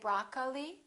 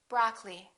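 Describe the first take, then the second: First: Every vowel is clearly pronounced. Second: One vowel is dropped entirely. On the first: The speaker calls it wrong. "Don't say broccoli" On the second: The speaker calls it right. "one vowel, one syllable, which is not pronounced"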